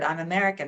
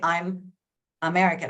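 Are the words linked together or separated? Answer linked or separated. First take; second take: linked; separated. First: The words run together as one blended unit. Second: The words are said separately with a break. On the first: The speaker calls it right. "It sounds almost like the M is moved over to, or that it's blended into one word" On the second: The speaker calls it wrong. "I don't say I'm American. I don't stop after that. I don't pause between the words"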